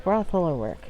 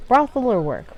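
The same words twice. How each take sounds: First: Said in the usual way. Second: Brothel hoger en luider; stress on brothel. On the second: Shown as a demonstration. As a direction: Brothel with a punch, high and loud.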